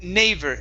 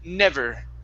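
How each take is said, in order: First: The first vowel sounds like a long a. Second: The first vowel is a short e. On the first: The speaker calls it wrong. "you had said never, nay" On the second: The speaker calls it right. "it's eh, short e"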